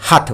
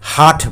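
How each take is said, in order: First: The vowel is short. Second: The vowel is long. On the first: The speaker calls it right. "হাট বলেছি" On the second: The speaker calls it wrong. "হাট বলিনি"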